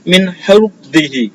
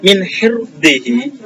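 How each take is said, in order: First: The r sound is heavy and thick. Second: The r sound is light and thin.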